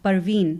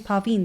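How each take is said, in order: First: The name begins with a B sound. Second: The name begins with a P sound. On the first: The speaker calls it wrong. "they say Barveen with a B" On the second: The speaker calls it right. "they don't say Parveen"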